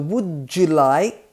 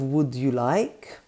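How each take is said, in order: First: The d and y blend into a j sound. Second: The d and y sounds stay separate. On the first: "two sounds blend together" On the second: "instead of"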